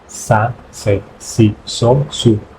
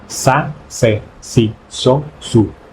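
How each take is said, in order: Both takes have the same delivery.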